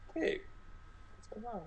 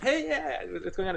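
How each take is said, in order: First: It is said with calm, low energy. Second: It is said with high, excited energy.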